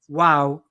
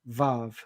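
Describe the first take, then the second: First: The word begins with a W sound. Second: The word begins with a V sound. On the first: The speaker calls it right. "if you want to do it right, you'd pronounce it wow" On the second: The speaker calls it wrong. "rather than vav"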